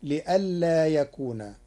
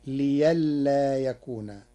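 First: Said in the usual way. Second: Liyalla with ya in place of hamza. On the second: Shown as a demonstration. Teacher demonstrating Warsh's liyalla, hamza turned to ya. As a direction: soften the hamza to ya in liyalla, slowly. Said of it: "بإبدال الهمز ياء تخفيفا".

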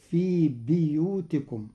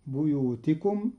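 First: بيوتكم with an i after the b, biyūtikum; Qalun reading. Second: Said in the usual way. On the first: Shown as a demonstration. Teacher reciting the verse to show the kasra on the ba. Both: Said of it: "بكسر الباء".

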